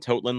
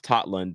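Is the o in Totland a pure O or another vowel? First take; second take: pure O; other vowel. First: The o is a pure Norwegian O. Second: The o is not a pure Norwegian O. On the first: The speaker calls it wrong. "I called him Totland last year" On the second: The speaker calls it right. "I'm going to say his name correctly this year"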